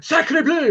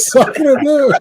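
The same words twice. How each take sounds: First: High, exaggerated French exclamation; French accent. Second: Laughing through a mock French cry; laughing French accent. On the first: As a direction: shout it like a cartoon Frenchman. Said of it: "this, like, French guy takes over". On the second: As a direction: echo it with a laugh, French-style.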